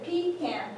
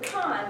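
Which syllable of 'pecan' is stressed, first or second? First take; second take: first; second. First: The stress is on the first syllable. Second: The stress is on the second syllable. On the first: "if you said pecan pie, then it would fit" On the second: "because the emphasis is on the second syllable"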